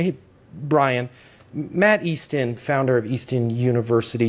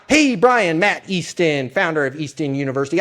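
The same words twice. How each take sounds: First: It is said slowly, as if searching for words. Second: It is said quickly and smoothly, like a script. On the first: The caller seems to be thinking and sincere. The speaker calls it right. "I'm slowing down and I'm actually putting thought into it" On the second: The caller sounds like a rehearsed pitch. The speaker calls it wrong. "it's not"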